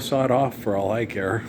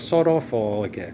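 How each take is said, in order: First: It is said in a plain American accent. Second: It is said in a put-on British accent.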